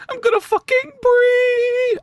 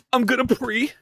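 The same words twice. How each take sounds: First: Very high, drawn-out squeal on "pre"; straining for high pitch. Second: Said in the usual way. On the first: Shown as a demonstration. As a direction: push the voice up as high as it goes and hold it. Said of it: "my voice doesn't go that high". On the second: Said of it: "I didn't do it justice".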